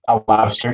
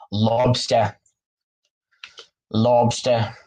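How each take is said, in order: First: Said in the usual way. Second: Lobster said as "lobstah", dropping the r in a light Boston accent; "Lobster" with a Boston broad o and no final r; Boston accent, lightly tried. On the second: Shown as a demonstration. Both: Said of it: "I'm trying to do the Boston accent".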